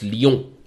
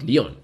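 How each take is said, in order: First: "Lyon" with a French nasal ending; French-style Lyon. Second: "Lyon" said the plain English way; anglicised Lyon. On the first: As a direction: correct them with a Frenchified "Lyon". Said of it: "it's not Lyon, it's Lyon". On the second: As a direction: say "Lyon" as an uncultured English speaker would. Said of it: "Bro, it's not Lyon". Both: Shown as a demonstration.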